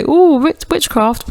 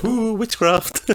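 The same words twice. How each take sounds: First: Higher spooky "Ooh, witchcraft"; mock-spooky witchcraft hoot. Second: Very high, slow spooky "Ooh, witchcraft"; mock spooky. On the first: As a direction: say it like a cheap horror tease. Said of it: "as if to say". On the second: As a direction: hoot it like a cartoon ghost. Echoes the spooky quote.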